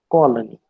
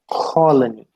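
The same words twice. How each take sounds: First: The first consonant has no puff of air. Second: The first consonant has a puff of air. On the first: This is how non-native speakers say it. "we pronounce it as colony" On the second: This is how native speakers say it. "They would pronounce it as colony"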